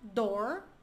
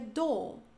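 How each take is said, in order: First: It is said with an American accent. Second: It is said with a British accent. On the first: "Um americano diria" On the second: "um britânico diria"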